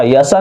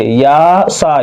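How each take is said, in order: First: यसा with both vowels cut short; या सा squashed into short syllables; wrongly hurried vowels. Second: या सा with both vowels held long; careful model reading, या and सा drawn out; long aa on each syllable; properly stretched vowels. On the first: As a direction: mistaken quick reading, यसा run together. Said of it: "यसा नहीं क". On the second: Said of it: "सही से समझिए". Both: Shown as a demonstration.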